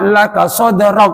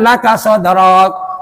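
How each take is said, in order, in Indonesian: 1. Vokalnya dibuat pendek. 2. Vokalnya dipanjangkan. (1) "Jangan dipanjangkan" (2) "Ya salah, enggak ada yang panjang"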